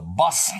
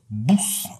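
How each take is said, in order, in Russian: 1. Произносится с лондонским акцентом. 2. Произносится с ливерпульским акцентом. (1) "в этих самых Лондонах" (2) "в Ливерпуле автобус называется бус"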